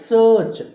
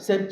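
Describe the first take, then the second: First: The vowel sounds like 'ur' as in turn. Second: The vowel sounds like 'eh' as in set. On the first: The speaker calls it right. "అలా కాదు, సర్చ్" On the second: The speaker calls it wrong. "సెర్చ్ కాదు"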